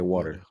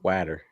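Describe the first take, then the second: First: It is said in a New Jersey accent. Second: It is said in a Massachusetts accent.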